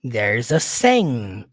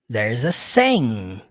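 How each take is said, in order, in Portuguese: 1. 'There is' é juntado numa única sílaba. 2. 'There is' é juntado numa única sílaba.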